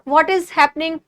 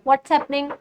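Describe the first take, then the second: First: The words 'what is' are said separately. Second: The words 'what is' merge into 'what's'. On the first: "जैसे व्हाट इज happening" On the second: "व्हाट्स happening बोल देते हैं ना"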